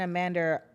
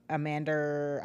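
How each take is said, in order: First: Said in the usual way. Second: Amanda said lower in a light British Lisa Vanderpump lilt; a hint of a posh British reality-star Amanda; Lisa Vanderpump accent. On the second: Slipping into a British accent while naming Amanda, lightly British. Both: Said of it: "I sound like Lisa Vanderpump".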